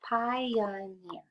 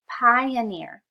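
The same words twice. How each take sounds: First: "pioneer" said softly in three clapped beats; clapped syllables. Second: "pioneer" loud and high, falling; announcing the word. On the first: Teacher claps out the syllables for children, soft and even. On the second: Teacher introduces a vocabulary word, loud and falling. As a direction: present "pioneer" strongly, falling. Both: Shown as a demonstration. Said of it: "Let's clap that out".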